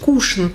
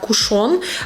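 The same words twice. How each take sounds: First: The stress is on the first syllable. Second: The stress is on the last syllable. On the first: "нивелируется буква О" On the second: "Мы привыкли в подобных словах давать ударение на последний слог"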